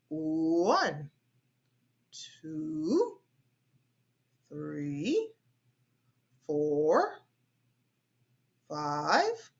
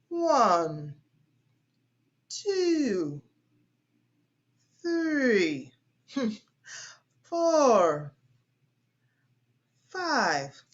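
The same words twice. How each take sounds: First: Each count rises in pitch at the end. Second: Each count falls in pitch at the end.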